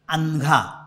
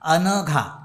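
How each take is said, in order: First: A vowel sound in the name is clipped short. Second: Every vowel sound in the name is fully pronounced. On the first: The speaker calls it wrong. "पाय तोडून बोलण्याची सवय झालेली" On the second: The speaker calls it right. "अनघा पूर्ण आहे"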